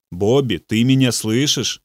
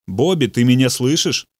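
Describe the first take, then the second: First: Gentle. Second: Said in the usual way. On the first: A narrator's reading. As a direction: lean in and ask "Бобби, ты меня слышишь?" tenderly. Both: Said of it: "мягко повторил".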